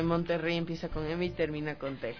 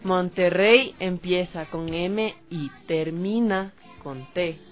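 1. La oración se dice a un ritmo normal. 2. La oración se dice más despacio.

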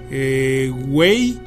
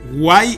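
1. Se pronuncia como el inglés "way". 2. Se pronuncia a la española, "guay".

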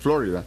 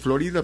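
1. Se dice como lo dicen los estadounidenses. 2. Se dice como lo dicen los hispanohablantes. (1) "los norteamericanos pronuncian Florida" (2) "muchos dicen Florida"

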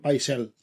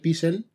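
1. La primera vocal suena como 'eye'. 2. La primera vocal suena como 'ee'. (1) "ahí dicen Paisel en la serie" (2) "leyendo Juego de Tronos era el gran maestre Pisel"

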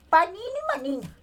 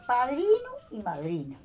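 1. Las palabras se dicen con sonidos 'n' simplificados. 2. Las palabras se dicen con sonidos 'dr' completos. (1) "Era así que yo decía" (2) "Se dice padrino y madrina"

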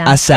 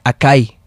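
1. La consonante del medio es un sonido s. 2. La consonante del medio es un sonido k. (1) "una C, que se pronuncia como S" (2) "Hay gente que dice acai. Porque se escribe con C"

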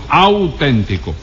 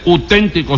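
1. El sonido inicial 'au' es pleno y claro. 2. El sonido inicial 'au' es reducido o borroso. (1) "sino auténtico" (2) "no se dice auténtico"

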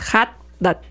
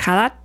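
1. La H inicial es un sonido más fuerte y enfático. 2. La H inicial suena como una J en español. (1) "pues lo haces más, es Haddad" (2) "la H suena como J"

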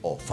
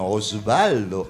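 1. El nombre se dice recortado, con sonido 'f'. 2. El nombre se dice completo, con sonido 's'. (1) "es Ofaldo" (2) "por más que se llame Osvaldo"

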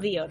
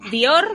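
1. El acento está en la primera sílaba. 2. El acento está en la segunda sílaba.

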